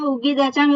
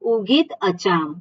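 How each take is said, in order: First: The two words are joined together. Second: The two words are said separately. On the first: "એવું બોલી શકીએ, સહેલું પડે થોડુંક" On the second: "હું છૂટા કરીને બોલું છું"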